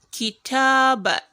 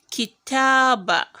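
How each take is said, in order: No difference in how they are said.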